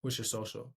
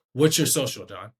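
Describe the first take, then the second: First: Low, very soft question; meek, underpowered request; unconfident ask. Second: Louder, direct question; assured, projected request; confident ask. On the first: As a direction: ask it small and quiet. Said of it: "I sound way different saying". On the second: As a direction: ask it firmly, like you expect an answer. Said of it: "I sound confident". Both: Shown as a demonstration.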